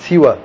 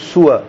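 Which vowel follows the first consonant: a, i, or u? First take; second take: i; u. First: The first vowel is i, as in siwa. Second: The first vowel is u, as in suwa. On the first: "سین کے نیچے کسرہ ہے، زیر ہے" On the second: "سین کے اوپر غمہ ہے"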